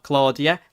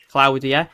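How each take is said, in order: First: The rejected Claudia, first syllable rhyming with "law"; Claudia as CLAW-dia. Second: The correct Claudia, first syllable rhyming with "now"; Claudia as CLOW-dia. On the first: Streamer showing viewers the wrong storm name, Claudia pronounced CLAW-dia. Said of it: "not Claudia". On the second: Streamer correcting the storm's name for viewers, Claudia pronounced CLOW-dia. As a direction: say Claudia with OW, as in "cloud". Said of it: "which is how you pronounce it". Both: Shown as a demonstration.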